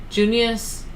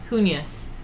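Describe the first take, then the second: No difference in how they are said.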